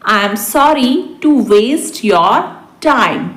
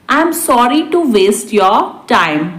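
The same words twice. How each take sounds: First: Deliberate, for learners; spaced-out repeat. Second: Said in the usual way. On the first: Shown as a demonstration. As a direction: pause before the last word. Teacher repeats translation word by word. (रुक-रुककर)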